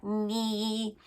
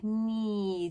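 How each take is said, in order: First: "ni" pushed hard through the nose, twang style; "ni" as a sharp twang sound; nasal twangy ni. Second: "ni" said like the ordinary word, only lightly nasal; just say "ni" as a normal word; "ni" relaxed, not twangy; plain spoken ni. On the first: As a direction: squeeze "ni" into a bright nasal twang. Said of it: "it's not like ni". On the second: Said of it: "more like ni". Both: Shown as a demonstration.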